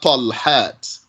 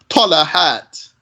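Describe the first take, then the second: First: No vowel is heard between the l and h. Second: A vowel is heard between the l and h. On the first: "not Talhat" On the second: "with a fatha on the lamb"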